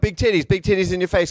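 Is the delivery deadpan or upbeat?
upbeat. It is said in a lively, energetic way. "You got these upbeat guys"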